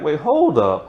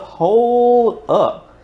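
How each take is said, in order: First: Said in the usual way. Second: Surprised. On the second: Retold or imitated. Stunned by the plot twist.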